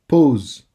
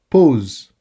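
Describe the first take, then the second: No difference in how they are said.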